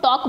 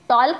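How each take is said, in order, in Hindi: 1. L की ध्वनि बोली नहीं जाती। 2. L की ध्वनि साफ़ बोली जाती है। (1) "तो आप इसको टॉक बोलते हैं" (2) "टॉल्क नहीं बोलते"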